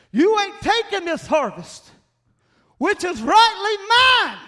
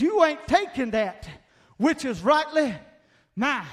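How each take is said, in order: First: Loud, much higher cry, slowing at the end; a preacher yelling at the Philistines; shouted defiance. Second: Louder, higher defiant declaration; a preacher voicing a defiant farmer; defiant quote. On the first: Retold or imitated. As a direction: roar it out to the enemy. Repeat of quote, escalating. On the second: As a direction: stand firm as you say it. Quoting defiance to Philistines.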